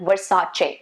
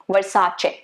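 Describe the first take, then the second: No difference in how they are said.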